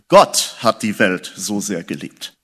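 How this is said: The stress falls on the word Gott. It was God himself who loved, not anyone else. "Ich möchte allerdings die Betonung ein bisschen anders legen"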